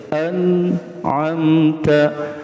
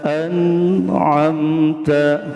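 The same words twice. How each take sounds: The two takes are said the same way.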